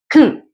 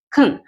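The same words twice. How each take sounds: First: The vowel is reduced to a quick schwa. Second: The vowel is reduced to a quick schwa.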